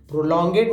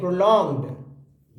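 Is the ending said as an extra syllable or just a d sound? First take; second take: extra syllable; d sound. First: The ending is said as a separate syllable. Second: The ending is said as just a d sound. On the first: The speaker calls it wrong. "नहीं" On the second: The speaker calls it right. "ईडी को हेड बोलते हैं"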